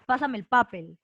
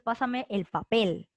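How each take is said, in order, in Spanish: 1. Papel lleva el acento en la primera sílaba. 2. Papel lleva el acento en la última sílaba. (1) "tú no dices pásame el papel" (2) "Fuerza de voz en la última"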